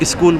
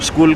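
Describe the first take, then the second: First: An added vowel comes before the s sound. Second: It starts directly with the s sound.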